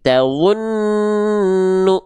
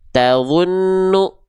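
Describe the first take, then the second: First: The nasal sound is held long before continuing. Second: The nasal sound is rushed and cut short. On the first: The speaker calls it right. "tapi tawunnu, ah gitu" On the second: The speaker calls it wrong. "Jangan tergesa-gesa, teman-teman. Jangan sampai gini"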